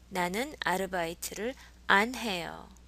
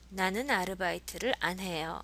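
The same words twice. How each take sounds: First: The word 안 is strongly over-enunciated. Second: The word 안 is said in a normal way.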